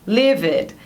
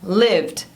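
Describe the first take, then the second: First: It has two syllables, ending in an id sound. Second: It has one syllable, ending in a d sound. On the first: The speaker calls it wrong. "muita gente falando" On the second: The speaker calls it right. "Uma sílaba só com som de D no final"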